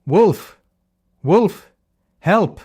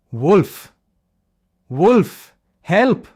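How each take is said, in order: First: High, loud cry for help that is only a prank; fake alarm shout. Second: High, loud desperate scream for help; this time he means it; terrified cry. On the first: Shepherd boy tricking villagers with a loud wolf cry. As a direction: yell to fool the village below. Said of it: "shouted at the top of his voice". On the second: Acted. Leo facing a real wolf, screaming in true fear.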